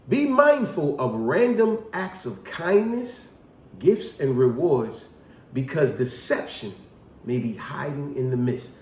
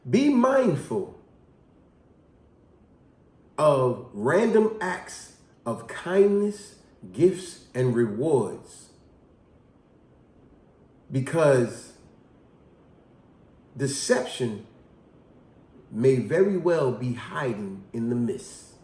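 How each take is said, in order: First: It is said smoothly without pausing. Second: It is said with pauses between phrases.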